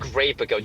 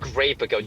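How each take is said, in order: First: The middle consonant is a p sound. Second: The same.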